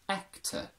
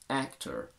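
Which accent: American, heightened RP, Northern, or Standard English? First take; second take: heightened RP; American. First: Said in a heightened RP accent. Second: Said in a General American accent. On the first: "heightened R P" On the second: "General American"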